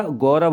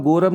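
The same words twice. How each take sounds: First: गौरव as "gau-rav", open au, drawn slower; correct vowel demo. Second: गौरव said as "go-rav", plain o; wrong vowel demo. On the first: Teacher correcting children, गौरव as gau-rav. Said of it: "गौरव होता है". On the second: Teacher showing the error, गौरव as go-rav. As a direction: round the first vowel of गौरव to o. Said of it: "गौरव नहीं होता". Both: Shown as a demonstration.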